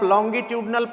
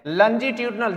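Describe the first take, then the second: First: It begins with a full 'long-gi' sound. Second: It begins with a soft 'lun-ji' sound. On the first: This is how the word is read from its spelling. "जिसे आप लॉन्गिट्यूडनल पढ़ते हैं" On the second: This is how the word is spoken. "English में बोलते हैं लंजीट्यूडनल"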